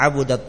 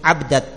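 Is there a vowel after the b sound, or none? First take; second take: vowel; none. First: The b is followed by an u vowel. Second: The b is followed directly by the next consonant. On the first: "dengan ba yang didhamma" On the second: "dengan ba yang disukun"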